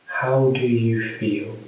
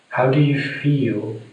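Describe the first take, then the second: No difference in how they are said.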